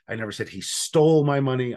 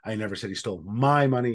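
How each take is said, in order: First: The stress is on "stole". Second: The stress is on "my".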